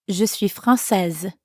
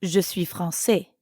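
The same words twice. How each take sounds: First: "française" with a clear final z sound; slow model read of "Je suis française", sounding the z at the end of "française"; teacher models the feminine form "française", final z voiced. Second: "français" ending on an open "è", no final consonant; the wrong, masculine form "français" with a silent ending. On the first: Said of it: "Notice the change in the pronunciation?". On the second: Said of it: "I wouldn't actually say". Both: Shown as a demonstration.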